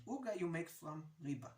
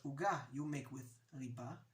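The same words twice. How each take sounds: First: "uga" and "riba" stressed on their first syllables; OO-ga made from REE-ba; front-stress "uga" and "riba"; slangy penultimate stress. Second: "uga" and "riba" stressed on their last syllables; oo-GA made with ree-BA; standard final stress. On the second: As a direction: land on the endings of "uga" and "riba". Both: Shown as a demonstration. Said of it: "what's the difference between uga and uga".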